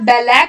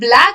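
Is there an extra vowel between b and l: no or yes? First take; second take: yes; no. First: An extra vowel is inserted between b and l. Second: B and l are joined with no vowel between. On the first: The speaker calls it wrong. "बच्चा बैलैक बोल रहा है" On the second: The speaker calls it right. "ब्लैक बोलने बोलने के बजाय"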